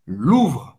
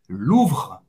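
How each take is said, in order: The two takes are said the same way.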